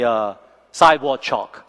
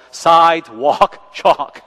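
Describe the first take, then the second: First: Said in the usual way. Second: "sidewalk chalk" dragged out slow and louder with a laugh; laughing slow repeat of "sidewalk chalk"; slow stressed correction. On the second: Real, not acted. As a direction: spell out "sidewalk chalk" slowly and loudly. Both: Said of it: "Sidewalk, sidewalk".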